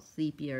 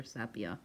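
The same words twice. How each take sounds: First: First "sepia" as SEE-pee-uh, long ee; long-e pronunciation. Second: Second "sepia" as SEP-ee-uh, short e; short-e pronunciation. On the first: Crafter wondering aloud which is right, "sepia" as SEE-pee-uh. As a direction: open "sepia" with the sound of "see". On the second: Crafter weighing the alternative, "sepia" as SEP-ee-uh. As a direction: open "sepia" with the sound of "sep". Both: Shown as a demonstration. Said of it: "I don't know how you say that".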